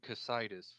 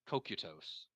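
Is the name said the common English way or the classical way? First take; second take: common English; classical. First: It is said the common anglicized way. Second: It is said with classical hard sounds. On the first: This is how people usually say it. The speaker calls it wrong. "we may say Casitas" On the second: This follows the original classical pronunciation. The speaker calls it right. "it should be Kokutos"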